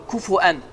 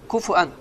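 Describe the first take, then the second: The two takes are said the same way.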